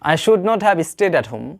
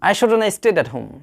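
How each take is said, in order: First: It is said as two separate full words. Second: It is said as one short contracted word.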